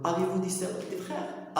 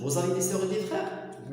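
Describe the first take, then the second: First: Very slow, each syllable of "Avez-vous des sœurs et des frères؟" separated; slow correct form. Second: Very slow "Vous avez des sœurs et des frères؟", falling at the end; slow wrong form. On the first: Teacher showing students the right way to ask, slowly. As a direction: model the correct inversion slowly. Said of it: "تتقول له". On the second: Teacher showing students the form not to use, slowly. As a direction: show the form to avoid, slowly. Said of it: "ما تتقولوش". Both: Shown as a demonstration.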